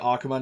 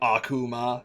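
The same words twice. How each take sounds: First: The word is said lightly, without exaggeration. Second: The word is said with exaggerated, overdone articulation. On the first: The speaker calls it right. "you gotta say Akuma" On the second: The speaker calls it wrong. "try not to overpronounce it"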